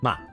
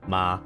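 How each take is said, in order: First: The pitch is hard with an abrupt stop. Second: The pitch stays flat and level. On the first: "it's like a hard. ... just hard stop" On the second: "If it's a flat line, you say flat"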